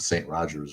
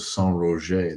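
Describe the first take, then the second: First: The name is said with an English pronunciation. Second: The name is said with a French pronunciation. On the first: "For the people of Saint Rogers, right?" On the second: "They're French, so I say it like that"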